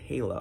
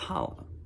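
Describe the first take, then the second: First: The name does not sound like 'holla'. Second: The name sounds like the word 'holla'. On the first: This is how the show says it. The speaker calls it wrong. "they call it Hala or something like that" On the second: This is the fun way the speaker prefers. The speaker calls it right. "come on, it's Hala. Like, have fun with it"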